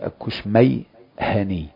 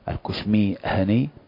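First: The vowel after the m is an a. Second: The vowel after the m is an i. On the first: "ومع فتح الميم" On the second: "هذا بكسر الميم"

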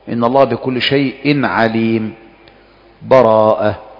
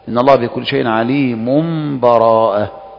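First: A full stop with a breath before the last word. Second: The phrases run together with no break at all. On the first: "الوجه الأول الوقف ... أن تقف تأخذ نفسك" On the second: "والوجه الثالث الوصل"

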